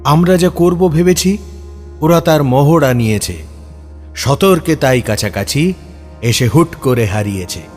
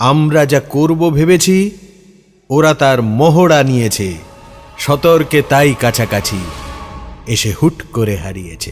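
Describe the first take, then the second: Both takes have the same delivery.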